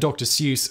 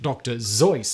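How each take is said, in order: First: The name starts with an S sound. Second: The name starts with a Z sound. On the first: The speaker calls it wrong. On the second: The speaker calls it right.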